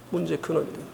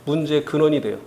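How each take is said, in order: First: 문제의 근원이 돼요 dropped to a near hush; softer repeat. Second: Said in the usual way. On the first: Shown as a demonstration. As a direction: let the repeat sink, much softer. (조용히 되풀이하며)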